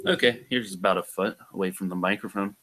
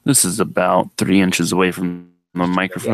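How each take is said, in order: First: Distant, softer mic sound; a foot from the mic. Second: Close to the mic. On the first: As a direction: speak from a foot back off-mic. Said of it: "go back a foot and speak in the same voice". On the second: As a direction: lean right into the microphone. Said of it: "go up to about three inches and speak". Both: Shown as a demonstration.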